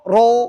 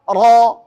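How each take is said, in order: First: The vowel is a rounded o sound. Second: The vowel is a thick, unrounded open a. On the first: The speaker calls it wrong. "Kalau o" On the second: The speaker calls it right. "Kalau fathah bunyinya ro"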